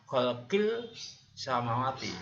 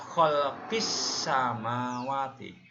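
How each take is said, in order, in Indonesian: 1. Huruf L dibaca jelas sebelum S. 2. Huruf L melebur menjadi bunyi S ganda. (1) "tidak dibaca kholqil samawati" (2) "Membacanya kholqis samawati"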